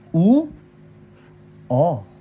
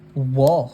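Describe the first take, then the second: First: The two vowels are said slowly and separately. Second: The two vowels are said quickly as one sound.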